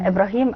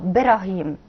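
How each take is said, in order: First: The name starts with an i vowel. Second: The name starts directly with the b.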